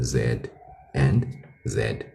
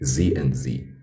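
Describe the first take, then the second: First: The letter name is said the non-American way. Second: The letter name is said the American way.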